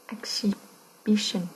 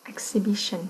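First: "Exhibition" very slowly, with a break before "bition"; slow, broken up. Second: Said in the usual way. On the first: Shown as a demonstration. Teacher helping students hear the stress, "Exhibition" slowly in parts. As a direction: split "Exhibition" in two, drawing it out.

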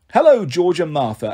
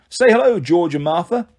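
First: Lightly voiced raspy male echo, falling end; raspy sarcastic snake. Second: Coaxing prompt. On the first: George the snake echoes his master, mildly raspy and sarcastic. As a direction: parrot it back with mild sarcasm. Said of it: "a raspy male voice said". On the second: Acted. Jogger asks his snakes to greet Percy, coaxing. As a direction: coax them to greet the guest.

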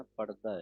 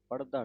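First: ਪੜਦਾ read lightly, as parda; the right way to read ਪੜਦਾ; ਪੜਦਾ ਸਹੀ ਉਚਾਰਨ; correct reading. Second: ਪੜਦਾ read with a hard ੜ; the wrong way to read ਪੜਦਾ; ਪੜਦਾ ਗਲਤ ਉਚਾਰਨ. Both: Shown as a demonstration. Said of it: "ਪੜਦਾ ਨਹੀਂ ਕਹਿਣਾ".

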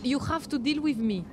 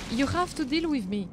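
No difference in how they are said.

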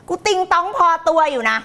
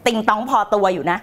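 First: Higher, playful mock boast; high comic boast. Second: Low, cool mock boast; low deadpan boast. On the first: Coach owns up to being dotty, high comic boast. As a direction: pitch it up for the joke. Repeats the joke boast, then laughs. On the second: Coach jokes about being dotty, low deadpan boast. Joke twist on her warning.

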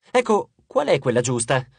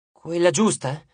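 First: Said in the usual way. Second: Forlorn echo, mildly sad; understated dejected echo; disconsolate. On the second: A narrator's reading. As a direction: repeat it back, a touch downhearted. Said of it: "ripeté Eco sconsolata".

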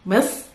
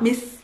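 First: Mis with a thick, dark Arabic s; slow Mis, emphatic s; heavy s Mis. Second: Mis with a thin English s; wrong light mis. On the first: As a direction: say Mis with the tongue pulled back. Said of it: "better pronounced as Misr". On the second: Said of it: "not mis". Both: Shown as a demonstration.

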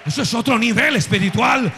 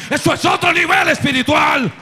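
First: Said in the usual way. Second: Much higher and louder, full-force preaching; a soaring shouted echo of the line; pulpit shout. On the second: Shown as a demonstration. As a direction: hurl the repeat at the congregation.

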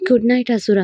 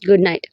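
First: good night in the wife's own lighter voice; wife's good night. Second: Husband's good night. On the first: Wife says good night. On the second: Husband bidding his wife good night, lower voice. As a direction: say good night low like the husband. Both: Acted.

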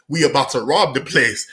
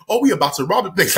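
First: Low, matter-of-fact retold announcement; calm. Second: Quicker, mildly excited mock announcement. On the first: Robbers telling a kid their plan, calm. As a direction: state it calmly, no excitement. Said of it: "said so calm, bro". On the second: Imagined robbers announcing the plan, mildly excited. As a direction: say it with a touch of excitement. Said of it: "in an excited manner".

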